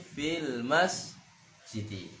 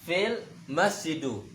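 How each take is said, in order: First: The last word ends in an i vowel. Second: The last word ends in an u vowel. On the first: The speaker calls it right. "tapi fil masjidi" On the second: The speaker calls it wrong. "tak bisa dibaca"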